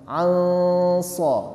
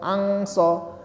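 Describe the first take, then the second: First: The n is nasalized and blurred into the s. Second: The n is pronounced as a clear ng sound. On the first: The speaker calls it right. "menyamarkan nunnya" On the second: The speaker calls it wrong. "Jadi bukan angso"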